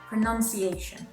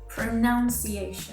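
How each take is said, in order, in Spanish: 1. La segunda sílaba suena como 'nun'. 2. La segunda sílaba suena como 'noun'. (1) "the correct way to say the noun form of this word is pronunciation" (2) "This mistake is probably made from how the verb form of this word, pronounce, is said"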